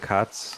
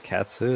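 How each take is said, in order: First: The final u vowel is dropped. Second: The final u vowel is clearly heard. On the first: It sounds like a name for the cat. "because you say kats" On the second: It clearly refers to the person. "you could say katsu"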